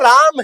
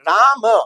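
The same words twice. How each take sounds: First: The word ends on the m with no vowel. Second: A short vowel is sounded after the final m. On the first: "लेकिन बोलते राम है आधा, ए को उच्चारण नहीं करते" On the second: "अब हम लिखते तो राम है"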